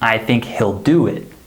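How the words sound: The stress falls on the main verb do. The speaker calls it right. "We stress the main verb"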